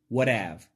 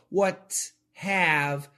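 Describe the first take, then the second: First: The T in what sounds like a D. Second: The T in what is a clear T. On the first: "In American English" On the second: "what have is very British"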